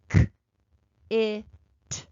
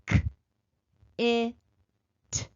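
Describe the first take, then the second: First: The sounds are said a little faster. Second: The sounds are said slowly, spaced apart. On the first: "Let's do it again, a little faster" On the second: "Let's sound it out slowly at first"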